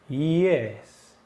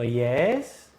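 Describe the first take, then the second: First: The pitch falls on the word. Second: The pitch rises on the word. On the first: "Baja, ¿no?" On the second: "O digo yes y lo subo"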